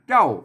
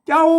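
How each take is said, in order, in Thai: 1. คำนี้ออกเสียงวรรณยุกต์โทปกติ 2. คำนี้ออกเสียงวรรณยุกต์โทพิเศษ (1) "ใส่ไม่โทเสียงโทปกติ" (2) "อันใส่จุดเจ้าเสียงโทพิเศษ"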